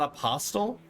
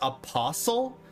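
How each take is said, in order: First: The t sound in the middle is heard. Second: The t sound in the middle is silent. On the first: This is how the speaker always said it. The speaker calls it wrong. "Not apostle?" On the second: This is the correct pronunciation. The speaker calls it right. "it's supposed to be pronounced apostle"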